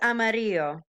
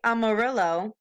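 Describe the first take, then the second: First: The word is said with Spanish-style sounds. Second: The word is said with English-style sounds. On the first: The speaker calls it right. "but it's amarillo" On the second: The speaker calls it wrong. "I know you want to say amarillo"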